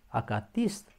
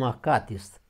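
First: The stress falls on the I syllable. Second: The stress falls on a non-I syllable. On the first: The speaker calls it right. "Accentul pe I" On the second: The speaker calls it wrong. "chiar dacă auzim acatist, greșit"

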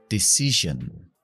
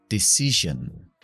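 Both takes have the same delivery.

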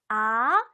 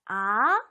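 First: The pitch rises from low to high. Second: The pitch rises from low to high.

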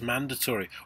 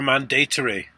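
First: The word is pronounced the ordinary way. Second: The word is pronounced the newer, threatening-sounding way.

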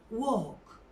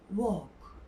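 No difference in how they are said.

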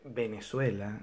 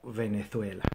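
First: It starts with a B sound and has s. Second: It starts with a V sound and has z. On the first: "nosotros lo decimos con B alta aunque es con B pequeña y lo decimos con S" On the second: "Uno debería decir algo así como Venezuela"

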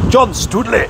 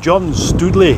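First: The name is said in a Scottish accent. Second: The name is said in a plain accent. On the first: The speaker calls it right. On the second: The speaker calls it wrong.

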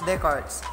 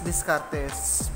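First: The name is pronounced the original French way. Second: The name is pronounced the local Filipino way. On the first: This respects the man's own nationality. "But with respect to his nationality, that is read as Descartes" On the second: This is how Filipinos commonly read it. "Kung tayo mga Pilipino, that is Descartes"

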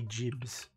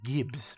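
First: The word begins with a j sound. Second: The word begins with a hard g sound. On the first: The speaker calls it right. "I'm told it's meant to be jibs" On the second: The speaker calls it wrong. "I always assumed it was gibs"

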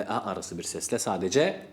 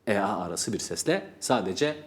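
No difference in how they are said.

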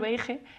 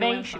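First: The word is pronounced the Spanish way. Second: The word is pronounced the English way. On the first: The speaker avoids the proper pronunciation from embarrassment. The speaker calls it wrong. "voy a decir beige, eso no es inglés" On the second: The speaker knows the proper pronunciation. The speaker calls it right. "pronunciar bien"

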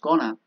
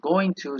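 First: The words are run together into one reduced word. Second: Both words are said fully and separately. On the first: "cuando pronunciamos rápidamente esto, ok, no decimos going to, sino decimos gonna" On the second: "no decimos going to"

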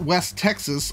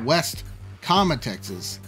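First: The two words run together without a pause. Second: A short pause separates the two words. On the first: It names the western region of the state. "Not West Texas" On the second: It names a town within the state. "The town is called West"

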